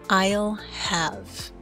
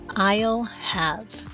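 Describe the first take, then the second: First: The first two words merge into one syllable. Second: The same.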